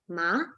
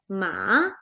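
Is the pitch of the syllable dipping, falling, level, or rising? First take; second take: rising; dipping. First: The pitch rises from low to high. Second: The pitch falls and then rises. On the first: "In second tone, which is the rising tone" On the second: "It falls and then it rises"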